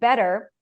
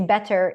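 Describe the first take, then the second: First: The middle t is a quick flap. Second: The middle t is a clear, full t. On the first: "the flap T" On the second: "they say better instead of"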